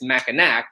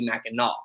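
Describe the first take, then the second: First: The word is pronounced the way it is spelled. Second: The word is pronounced differently from its spelling. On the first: The speaker calls it wrong. "if you pronounce it" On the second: The speaker calls it right. "it's actually"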